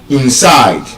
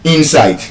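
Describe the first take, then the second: First: The stress is on the second syllable. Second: The stress is on the first syllable. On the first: The speaker calls it right. "The stress is on the second syllable" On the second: The speaker calls it wrong. "is not inside"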